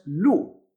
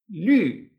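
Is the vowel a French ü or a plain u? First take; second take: plain u; French ü. First: The vowel is a plain rounded u. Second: The vowel is a rounded i sound. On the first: The speaker calls it wrong. "Fíjate que no es LU, no es LU, no es una U" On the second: The speaker calls it right. "es LU. LU, esta U con diéresis, esta U francesa"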